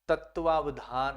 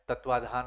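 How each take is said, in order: First: The word has a 'va' syllable before 'dhaan'. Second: The word drops the 'va' syllable before 'dhaan'. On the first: This is the standard form. The speaker calls it right. "तत्वावधान आता है" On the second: This is how people commonly say it. The speaker calls it wrong. "तत्वाधान अपन बोलते रहते हैं"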